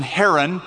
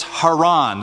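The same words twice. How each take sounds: First: Haran said HAIR-un, stressed first; person's name pronunciation. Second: Haran said hah-RAHN; stress on last syllable. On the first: Bible teacher naming the person, Haran stressed on first syllable. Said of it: "call the person Haran". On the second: Bible teacher naming the place, Haran stressed on last syllable. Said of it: "emphasis on the last syllable". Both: Shown as a demonstration.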